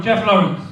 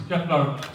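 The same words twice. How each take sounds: First: Name called out loud; calling out. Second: Said in the usual way. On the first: Real, not acted. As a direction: call the winner's name louder. Calling winner's name loudly.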